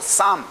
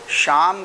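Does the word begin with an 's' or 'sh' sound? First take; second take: s; sh. First: The word begins with an s sound. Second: The word begins with a sh sound. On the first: The speaker calls it wrong. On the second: The speaker calls it right.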